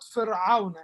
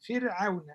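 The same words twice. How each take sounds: First: The sounds of the word are heavy. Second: The sounds of the word are light. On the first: The speaker calls it wrong. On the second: The speaker calls it right. "all light"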